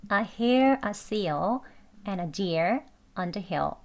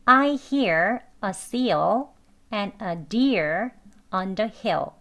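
First: "I" as "ah", "and a" linked, light endings; slowly, weakening r and L in "hear", "seal", "hill"; weak conversational pronunciation, slow. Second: "hear", "deer" slow with tongue pulled back, full L in "seal"; careful learner pronunciation. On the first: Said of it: "대화 발음으로 이렇게 약하게 천천히". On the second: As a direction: sound "I hear a seal" fully, word by word. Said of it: "배우는 발음으로 해봤습니다". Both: Shown as a demonstration.

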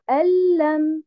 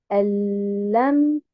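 First: Al-lam higher, with stress on the wrong syllable. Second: Al-lam with a doubled l; correct al-lam. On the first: Teacher contrasts the wrong al-lam. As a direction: show the incorrect al-lam. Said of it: "et non pas". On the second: Teacher models al-lam for students. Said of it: "donc je dis". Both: Shown as a demonstration.

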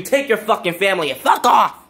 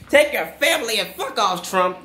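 First: Louder, biting curse-out; cursing him out to leave; angry outburst. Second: Laughing through the curse; cheerful jeering send-off. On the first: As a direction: spit it at him like a send-off. Cursing out departing president. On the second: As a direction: giggle as you tell him off. Repeats curse while laughing. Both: Real, not acted.

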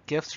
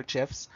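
First: "gifs" with a hard g; "gifs" starting with a hard g sound; hard-g pronunciation. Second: "gifs" with a soft g; "gifs" starting with a j sound; soft-g pronunciation. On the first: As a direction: say "gifs" with g as in gift. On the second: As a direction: say "gifs" like "jifs". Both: Shown as a demonstration. Offers two pronunciations of gifs.

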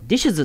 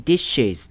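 First: ディッシュズ with the final consonants crammed together, no E vowel; dishes without E. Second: ディッシュズ with an added vowel, "dish-iz"; dishes with E. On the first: Teacher showing why E is needed, ディッシュズ hard to pronounce without it. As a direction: say ディッシュズ as an awkward cluster, no vowel before the end. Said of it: "Eがなかったら発音しにくいでしょ". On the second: Teacher showing the easier pronunciation, ディッシュズ with its E sounded. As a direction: say ディッシュズ in two easy syllables, dish-iz. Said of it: "発音しやすくするために". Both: Shown as a demonstration.

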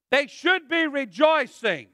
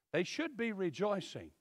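First: "should" punched loud and firm; stress on should. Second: Quiet repeat. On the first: Preacher to church, stressing should loudly. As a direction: hit "should" hard to shame them. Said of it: "They should be excited". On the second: Preacher to church, repeating the point softly. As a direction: restate "should" gently and quietly. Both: Shown as a demonstration.

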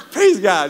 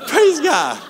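First: Said in the usual way. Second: Much higher, louder mock "Praise God"; mock exclamation. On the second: Pastor re-enacting friend's reaction to the sunken ring, high mock cry. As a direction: squeal it to heaven in wry disbelief.

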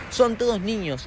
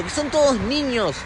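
First: Said in the usual way. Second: "todos" stressed, louder and slower; emphatic repeat. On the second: Real, not acted. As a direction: lean hard on "todos niños". (recalcando "todos", más fuerte y lento)

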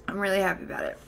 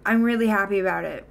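First: Much softer, said to herself; softer repeat. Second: Said in the usual way. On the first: Real, not acted. Streamer softly repeats to chat that she is happy. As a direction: let it land quietly, almost private.

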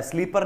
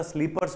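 First: स्लीपर ending on R; the rejected form स्लीपर, without final S; singular without S. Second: Corrected form स्लीपर्स, ending in RS; plural final S. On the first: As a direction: stop स्लीपर on the R, no S. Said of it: "स्लीपर नहीं होता". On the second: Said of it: "स्लीपर्स होता है". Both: Shown as a demonstration.

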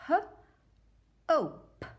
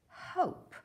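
First: H-ope stretched, higher and louder; sounded out. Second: Said in the usual way. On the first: Shown as a demonstration. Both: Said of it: "Help me".

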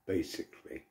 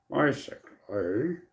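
First: Said in the usual way. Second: Slow drawn-out nerdy "Basically" with a rising end. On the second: Shown as a demonstration. Saying a word to himself in a nerdy voice. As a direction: stretch "Basically" out like a know-it-all nerd. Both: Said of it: "I say it in a nerdy voice to myself".

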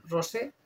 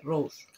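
First: "rosé" said Spanish style, stress on the final é; rosé with the stress landing on the last syllable, é; rosé with accent. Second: "Rose" as one English syllable, no final é; plain English rose. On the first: Reading a lipstick shade name with a Spanish accented é. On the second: Correcting herself to the English shade name Rose. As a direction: Rose said the English way, ending flat on the s. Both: Shown as a demonstration. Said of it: "por qué digo rosé con tilde".

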